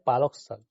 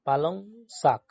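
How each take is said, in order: First: The first word ends in a k sound. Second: The first word ends in an ng sound. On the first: This is how people from the speaker's region say it. The speaker calls it wrong. "আর আমরা বলি পালক শাক" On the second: This is how people from the listener's district say it. The speaker calls it right. "তোমরা বলো পালং শাক"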